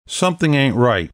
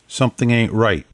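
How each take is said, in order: First: Suspicious, higher-pitched objection; shouted challenge. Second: Said in the usual way. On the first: A narrator's reading. Wary gang member challenges the leader, shouting. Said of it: "One of them shouted". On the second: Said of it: "Catherine said".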